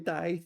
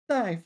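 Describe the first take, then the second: First: It is said with a low dipping tone. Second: It is said with a sharp falling tone. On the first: "third tone" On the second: "fourth tone"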